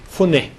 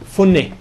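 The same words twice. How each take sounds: No difference in how they are said.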